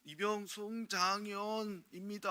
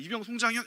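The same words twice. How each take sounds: First: Slow, high recruit's report with 입니다 drawn out; 어눌한 신병처럼 '이병 송장현입니다' 를 천천히 높게; korean military style. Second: Crisp shouted rank and name, no 입니다; korean military style. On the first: Retold or imitated. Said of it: "신고를 해요". (느리고 높은 신병 관등성명) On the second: Shown as a demonstration. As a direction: snap out '이병 송장현' sharply. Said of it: "이렇게 해야 되잖아요". (짧고 힘찬 군대식 관등성명)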